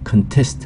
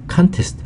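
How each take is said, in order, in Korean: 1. 강세는 두 번째 음절에 있어요. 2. 강세는 첫 번째 음절에 있어요. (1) "동사로 쓸 때는 강세가 뒤로 가잖아요" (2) "명사는 강세가 앞에 있고"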